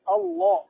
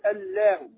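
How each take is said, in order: First: The l is heavy and full. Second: The l is light and thin. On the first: The speaker calls it right. "الله الصمد الله" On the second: The speaker calls it wrong. "ما تقول الله"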